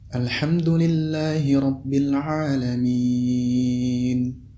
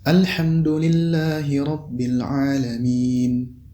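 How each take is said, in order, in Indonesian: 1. Vokal panjang terakhir ditahan sangat panjang. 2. Vokal panjang terakhir hanya ditahan sebentar. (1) "Jika dibaca enam harakat" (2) "Kemudian apabila dibaca dua harakat"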